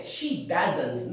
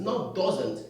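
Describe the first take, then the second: First: Doesn't said as DUZ-ent with a z; doesn't with a z sound. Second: Doesn't said with an O vowel as the wrong version. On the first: Teacher models doesn't for the class, carefully. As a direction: say doesn't with a clear z sound, no O vowel. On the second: Teacher shows the mispronounced doesn't, deliberately. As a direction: show the mistaken doesn't with an O sound. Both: Shown as a demonstration.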